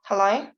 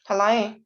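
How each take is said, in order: Both takes have the same delivery.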